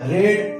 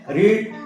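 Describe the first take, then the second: First: The vowel is short, like in 'red'. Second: The vowel is long, like in 'reed'. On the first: It is the past form. "इसका जो pronunciation होता है वो रेड होता है" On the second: It is the present form. "इस रीड का मतलब होता है पढ़ना"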